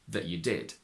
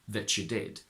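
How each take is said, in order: First: The t is a glottal stop before you. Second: The t and y merge into ch. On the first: "In modern R P you can merge them, but it's also common to use a glottal stop instead" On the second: "whereas Cockney mainly puts them together"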